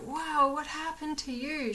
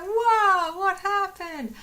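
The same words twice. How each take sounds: First: A touch of wide-eyed wonder, a bit higher; lightly voiced curious rabbit; mild rabbit excitement. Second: Much higher and much louder, squealing with wonder; excited rabbit voice. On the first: Voicing the rabbit Lois sniffing her sick friend, mildly excited. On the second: Retold or imitated. Voicing Lois the rabbit discovering her sick friend, hugely excited. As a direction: gush like an overexcited little bunny. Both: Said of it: "She was so excited".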